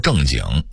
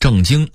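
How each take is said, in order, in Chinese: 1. 这个读的是北京变调。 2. 这个读的是标准读音。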